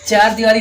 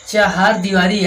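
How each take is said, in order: First: The first word is the short 'char'. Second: The first word is the longer 'chahar'. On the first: The speaker calls it wrong. "चार दीवारी नहीं होता है" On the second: The speaker calls it right. "ये होता है आपका चाहार दीवारी"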